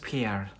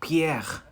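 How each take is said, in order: First: The name is said with English pronunciation. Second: The name is said with French pronunciation. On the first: "In English is Pierre" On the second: "I read it in French"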